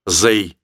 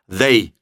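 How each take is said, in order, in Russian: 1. Слово начинается со звука z. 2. Слово начинается со звука th. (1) "чем «they»" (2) "Просто вот так его нужно произносить"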